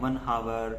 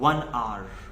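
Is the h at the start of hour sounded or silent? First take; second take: sounded; silent. First: The h at the start of hour is pronounced. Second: The h at the start of hour is silent. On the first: The speaker calls it wrong. "कुछ को लोग कहते हैं one hour" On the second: The speaker calls it right. "So this is called one hour"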